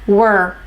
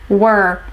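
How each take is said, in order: The two takes are said the same way.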